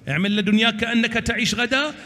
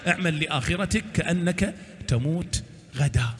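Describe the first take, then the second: First: Pitched up, with غدا rising at the end; hopeful lifted maxim. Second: Dropped voice, with تموت غدا falling away; sobering lowered maxim. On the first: Preacher quoting the Imam on worldly hope, lifted and rising. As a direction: carry the line upward to an open, rising غدا. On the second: Preacher quoting the Imam on the afterlife, lowered and sobering. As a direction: bring it down and settle gravely on غدا. Contrasting worldly hope with afterlife. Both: Acted.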